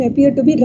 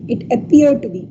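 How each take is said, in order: First: Said in the usual way. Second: "appear" leaned on firmly; stress on appear. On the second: Shown as a demonstration. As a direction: stress the word "appear" to make it stand out. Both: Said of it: "I'm stressing this word".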